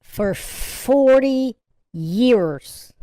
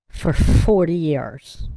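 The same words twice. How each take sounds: First: For forty years, forty dragged out very slowly; marvelling at forty, very slow; stress on forty. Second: Slow, leaning on forty; forty said slowly and firmly; stressed forty. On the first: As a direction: stretch forty out for emphasis. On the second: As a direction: draw out forty for weight. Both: Shown as a demonstration.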